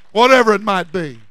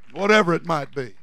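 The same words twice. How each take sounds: First: Loud, falling tail of a sermon climax; preaching cry. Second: Said in the usual way. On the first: Real, not acted. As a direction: call it out, letting the pitch fall.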